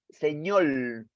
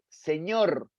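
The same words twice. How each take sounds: First: It is said with a Puerto Rican Spanish accent. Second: It is said with a Peruvian Spanish accent. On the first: "en Puerto Rico dicen señor" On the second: "y yo digo eh"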